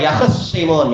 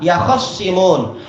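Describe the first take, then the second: First: No vowel is heard after the kh sound. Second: An a vowel follows the kh sound. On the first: "Khoknya masih disukun" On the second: "dibaca dengan kha yang di fathah"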